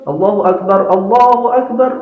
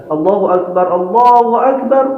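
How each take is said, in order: The two takes are said the same way.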